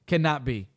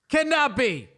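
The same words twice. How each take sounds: First: Said in the usual way. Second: CANNOT BE pitched high in protest; emphatic disbelief. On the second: Real, not acted. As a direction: insist "Cannot be" high, dropping at the end. Repeats denial with far more force.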